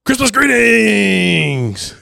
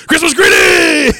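First: Slow, much higher shout of Christmas greetings; dad's over-eager camera shout; stiff shouted greeting. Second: Louder, higher shout while half laughing; dad doing the take again; repeated stiff shout. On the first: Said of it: "And he goes". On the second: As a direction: shout it again through the giggles. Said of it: "And he does it again". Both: Retold or imitated.

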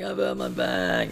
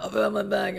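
First: Slower, softer, dragged-out moan of pain; slow pained groan. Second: High strained cry of pain, imitating himself; pained yelp. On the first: Retold or imitated. Telling friends he's hurt, as a slow pained moan. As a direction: let it sag into a hurt moan. Retelling injury on the jetty. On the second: Retelling to mates how he cried out, in a high pained yelp. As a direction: squeal it out like the pain just hit.

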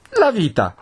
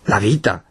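First: High-pitched frightened exclamation; alarmed confirmation. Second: Taken-aback question. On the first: Frightened priest confirming the threat to housekeeper, alarmed. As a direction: cry it high, insisting on the danger. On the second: Housekeeper echoing her master's words, taken aback. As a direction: repeat vita soberly, as a question. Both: Acted.

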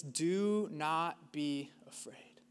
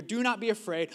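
First: Slow, breathy whisper of the command; slow reverent whisper; hushed whisper. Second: Said in the usual way. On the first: Acted. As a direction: breathe it out slowly like a secret. The Bible's most repeated command, hushed.

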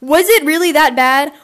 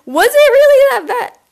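First: Said in the usual way. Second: High, loud incredulous question; shrill mock-shock repeat; squeaky high disbelief. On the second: Real, not acted. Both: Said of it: "Oh my God".

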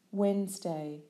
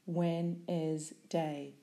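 First: Said in the usual way. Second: "Wednesday" pronounced carefully with every syllable clear, slow; split into syllables. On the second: Shown as a demonstration. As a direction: say "Wednesday" slowly, syllable by syllable: Wed-nes-day.

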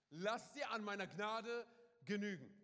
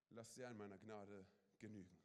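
First: Loud and slow, like God's own answer; proclaiming. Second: Soft tender. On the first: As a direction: call it out slowly to the congregation. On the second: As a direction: lower and much softer, gently spoken. Repeats God's word softly. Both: Acted.

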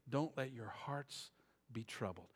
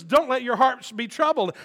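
First: Tender. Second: Preached. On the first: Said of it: "quiet tender reading". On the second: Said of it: "loud preached reading". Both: Shown as a demonstration.

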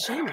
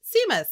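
First: "Seamus" said SHAY-mus; corrected pronunciation. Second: "Seamus" misread as SEE-mus, higher; mispronounced. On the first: Child corrects mother, retold, "Seamus" as SHAY-mus. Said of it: "even Safi was like". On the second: Mother retells misreading Harry Potter aloud, "Seamus" as SEE-mus. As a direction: say "Seamus" wrongly with an "ee" after a plain s. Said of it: "that's not how you say that word". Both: Retold or imitated.

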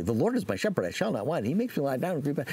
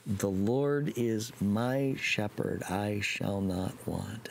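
First: Fast, rushed, rote recital; fast recital without meaning; rattled off by rote. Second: Slow and deliberate, each word weighed; slow, meaningful recital. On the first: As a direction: gabble it like a memorized chore. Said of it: "by rote very quickly". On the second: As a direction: say it slowly with meaning. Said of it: "Timmy practiced this psalm". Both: Retold or imitated.

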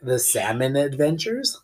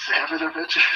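First: Laughing correction. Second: Repeats "Salmon Avengers" high and breathless; high whispered echo. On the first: Real, not acted. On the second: Shown as a demonstration. Friend echoing the misheard title, high whisper.

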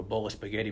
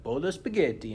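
First: Said in the usual way. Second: "Bowl of spaghetti" in a hammed-up Italian accent, pitched higher and louder. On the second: Shown as a demonstration. Telling a friend about a Zoom warm-up game, mock Italian accent. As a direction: toss out "Bowl of spaghetti" like a cartoon Italian cook. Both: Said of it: "you had to make an Italian accent".

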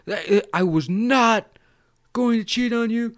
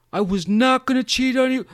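First: Mock emphatic denial. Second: High, loud put-on protest; mock earnest denial. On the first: Imitated Cotton denying cheating to girlfriend, emphatic. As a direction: stretch out "not" and insist. Repeats denial more deliberately. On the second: Imitated Cotton reassuring girlfriend, insistent.

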